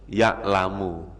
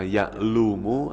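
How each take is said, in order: First: The vowel after the l is a. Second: The vowel after the l is u. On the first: The speaker calls it right. "Ya tetap dibaca ya'lamu" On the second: The speaker calls it wrong. "Jangan dibaca"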